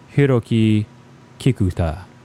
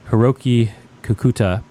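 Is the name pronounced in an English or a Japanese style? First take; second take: Japanese; English. First: The name is said with Japanese pronunciation. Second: The name is said with English pronunciation.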